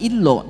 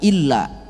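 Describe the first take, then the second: First: The vowel after the double L sounds like o. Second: The vowel after the double L sounds like a. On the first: The speaker calls it wrong. "bukan illo" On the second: The speaker calls it right. "tapi illa"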